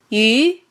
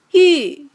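First: The pitch rises from mid to high. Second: The pitch falls sharply from high to low. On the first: "二声扬" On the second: "四声降"

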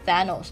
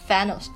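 First: The first sound does not resemble an F. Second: The first sound is close to an F. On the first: The speaker calls it wrong. "很多人就以为是念Thanos" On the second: The speaker calls it right. "其实是Thanos，更加靠近F 的发音"

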